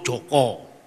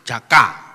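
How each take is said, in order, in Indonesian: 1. Nama itu diucapkan dengan vokal 'o'. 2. Nama itu diucapkan dengan vokal 'a'. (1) "Kalau orang Solo Joko"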